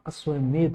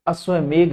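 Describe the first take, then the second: First: अश्वमेध ending in ध, a dental dh; correct final dh. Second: अश्वमेघ ending in घ, a gh sound; wrong final gh. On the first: Teacher correcting students, अश्वमेध ending in dh. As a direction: say अश्वमेध with the tongue on the teeth at the end. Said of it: "अश्वमेध होता है". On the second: Teacher showing the common mistake, अश्वमेघ ending in gh. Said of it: "अश्वमेघ नहीं होता". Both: Shown as a demonstration.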